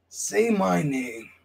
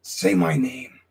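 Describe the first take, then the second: First: Very slow, drawn-out catchphrase; slow menacing repeat. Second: Said in the usual way. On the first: Acted. Wrestler demanding rivals say his name, slow and drawn out. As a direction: stretch every word like a threat. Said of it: "repeats catchphrase slowly". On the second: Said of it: "repeats catchphrase".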